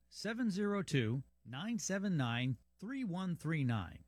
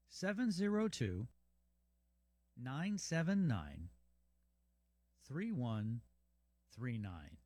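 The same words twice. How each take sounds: First: The number is read at normal speed. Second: The number is read more slowly.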